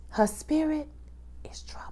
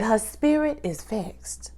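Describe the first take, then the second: First: Whispered "Her spirit is troubled", much softer; full whisper, "spirit" then "troubled" fading. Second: Slow and soft, "spirit" stretched out; slow hushed "spirit is vexed"; softly, slowly. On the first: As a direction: drop to a breathy whisper on "spirit". Repeating it more hushed. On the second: Describing Maddie's troubled state. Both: Real, not acted.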